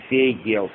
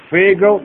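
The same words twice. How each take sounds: First: Фейгел with a full E vowel before L; spelling pronunciation. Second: Фейгл ending in a syllabic L, no full vowel; actual Yiddish pronunciation. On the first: Teacher easing spelling for students, фейгел with a full E. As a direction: sound out the written E in фейгел. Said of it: "пишите, наверное, чтобы вам было удобно". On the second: Teacher showing how it is pronounced, Фейгл with syllabic L. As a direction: let G run straight into L in Фейгл. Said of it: "ну произносится фейгл". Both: Shown as a demonstration.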